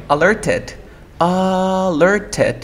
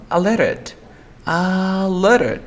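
First: Alerted with the T sounded, first vowel stretched on repeat; "alerted" keeping T after R; full T pronunciation. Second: Alerted said "a-ler-ed", higher; "alerted" gliding from R into the vowel; dropped T. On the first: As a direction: say "alerted" as written, crisp T. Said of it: "Entonces tengo esta T". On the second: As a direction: say "alerted" without the T. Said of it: "R, sonido vocal". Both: Shown as a demonstration.

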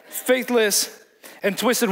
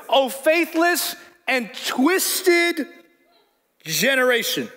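First: Slow repeat of faithless and twisted through a laugh. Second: Very slow, much higher rebuke, every word stretched; drawn-out rebuke. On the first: Real, not acted. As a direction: chuckle through the words, amused. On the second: Retold or imitated. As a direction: stretch out faithless and twisted like a solemn rebuke. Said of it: "Jesus is calling out everybody".

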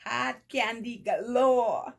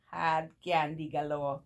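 First: Loud, high, drawn-out delight; excited exclamation. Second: Said in the usual way. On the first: Real, not acted. Vlogger exclaiming over gifted candy, delighted.

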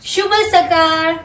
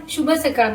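First: शुभ सकाळ slow and higher, drawn out; slow demonstration. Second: Said in the usual way. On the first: Shown as a demonstration. Mother showing her child how to say it, slow and higher. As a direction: model शुभ सकाळ slowly, lifting the pitch. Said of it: "mamma कसं म्हणते बघ". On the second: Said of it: "ते म्हण, शुभ सकाळ म्हण".

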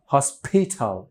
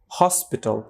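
First: "হসপিটাল" as hos-PHEE-THAL, stressing later syllables; wrongly aspirated P and T. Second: Said in the usual way. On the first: Shown as a demonstration. Teacher showing what nobody says, wrongly aspirated P and T. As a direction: puff p and t in "হসপিটাল", stretching them. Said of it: "এমনিও কেউ বলে না". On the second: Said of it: "হসপিটাল এমনিও কেউ বলে না".

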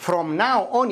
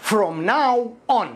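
First: Said in the usual way. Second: "From now on" stretched very slowly, stress on "now"; slow demo. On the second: Shown as a demonstration. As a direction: draw out "From now on" for learners to copy. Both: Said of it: "كما يقولون باللغة الإنجليزية".

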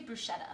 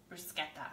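First: Bruschetta said "broo-SHET-tah", soft sh sound; bruschetta with an English sh, not k. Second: Bruschetta said "broo-SKET-tah", hard k sound; bruschetta the Italian way, sk not sh. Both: Shown as a demonstration. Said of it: "Do you guys say bruschetta or bruschetta?".

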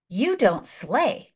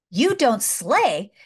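First: Slow deliberate words; slow solemn hatter. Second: Slow and a bit firmer; slow emphatic repeat. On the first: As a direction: lay each word down slowly. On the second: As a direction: press it home the second time. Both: Retold or imitated.

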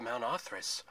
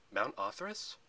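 First: Said in the usual way. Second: "Mount Othris" rising at the end as a question; questioning echo. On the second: A narrator's reading. Percy asks Thalia about the ruins, questioning. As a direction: echo "Mount Othris" with an upward, querying lift. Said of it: "Percy asked".

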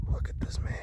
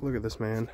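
First: Hushed whisper about a friend. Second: Said in the usual way. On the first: Pretend. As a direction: whisper it so he won't hear. Same words repeated whispered.

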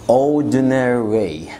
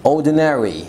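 First: Ordinary very slow, said as ord-nery; drawn-out Ordinary, only the first R sounded; slow ordinary without middle R. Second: Ordinary said as ord-nery; ordinary, first R kept, middle R gone; ordinary without middle R. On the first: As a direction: stretch out Ordinary, dropping the middle R. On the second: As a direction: say ordinary with the second R dropped. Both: Shown as a demonstration. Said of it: "فيها ار دي وفي R في الآخر".

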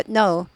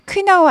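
First: "know" said like "no"; silent K. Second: "Know" wrongly said as "kuh-now"; sounded K. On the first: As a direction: start "know" straight on the n. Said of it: "K 발음 안 납니다". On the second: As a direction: pronounce the silent K in "Know". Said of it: "K가 복음이죠". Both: Shown as a demonstration.

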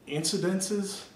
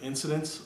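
First: Incidences said as in-si-den-sez; saying incidences with the extra syllable; mispronounced incidences. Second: Said in the usual way. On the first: Shown as a demonstration. Listing a pet peeve, incidences said in-si-den-sez. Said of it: "if you say incidences instead of incidents". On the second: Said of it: "instead of incidents".

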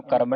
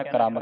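First: ਕਰਮ as "karam", vowel after the k; the mistaken ਕਰਮ, k and r apart; misreading. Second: ਕ੍ਰਮ as "kram", k and r joined; one-syllable ਕ੍ਰਮ; correct cluster. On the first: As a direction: say ਕਰਮ with no k-r cluster. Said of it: "ਇਹਨੂੰ ਕਰਮ ਨਹੀਂ ਕਹਿਣਾ". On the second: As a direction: run k straight into r in ਕ੍ਰਮ. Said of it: "ਕ੍ਰਮ ਕਹਿਣਾ ਹੈ". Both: Shown as a demonstration.

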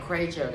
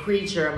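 First: "creature" distorted to "cray-cher"; imitated mispronunciation. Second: "creature" said properly as "KREE-cher"; teacher's model "creature", first syllable "kree"; pronunciation as taught. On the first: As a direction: parody a student's wrong "creature" with an ay vowel. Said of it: "cái là sao, sao ta hiểu". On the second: Shown as a demonstration. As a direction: give "creature" its long ee. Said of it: "thầy dạy creature".

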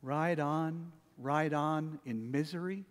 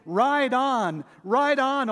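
First: Soft, dragging, gloomy singing; mournful. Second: Higher and louder, triumphant; joyful loud. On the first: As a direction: sing it like a dirge. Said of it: "Do our praises sound like this?". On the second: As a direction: ring it out in triumph. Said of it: "We sing". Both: Shown as a demonstration.

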